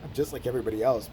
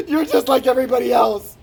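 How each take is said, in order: First: Said in the usual way. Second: Loud, high mock outburst; imitated hurt yell. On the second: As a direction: yell it like a betrayed friend. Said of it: "The only time he's ever yelled at me".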